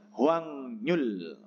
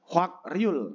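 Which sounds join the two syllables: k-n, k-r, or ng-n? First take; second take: ng-n; k-r. First: The syllables join with an ng then n sound. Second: The syllables join with a k then r sound. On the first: This is how it is actually read. The speaker calls it right. "karena ada giek ketemu dengan nyen dibacanya Hwangnyul" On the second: This is how it is written. The speaker calls it wrong.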